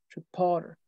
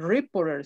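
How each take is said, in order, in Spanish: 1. El acento está en la segunda sílaba. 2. El acento no está en la segunda sílaba. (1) "sino reporter, reporter" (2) "no se dice reporter"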